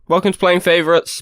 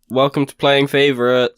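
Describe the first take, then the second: First: It is said with more energy and drive. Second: It is said flatly, with low energy.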